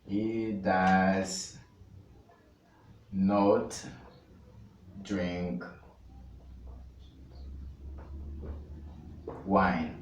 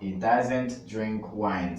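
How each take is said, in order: First: The verb is said as two separate words. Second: The verb is contracted into one word. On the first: "ao invés de he doesn't" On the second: "short form"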